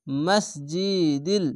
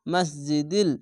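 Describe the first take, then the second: First: মসজিদিল stretched out very slowly, every syllable held; very slow recitation. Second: Said in the usual way. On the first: Shown as a demonstration. Teacher to students, reciting the word slowly for practice. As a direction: draw মসজিদিল out carefully. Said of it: "মিম সিন যাওয়ার মাস". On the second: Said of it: "দাল লাম জো দিল".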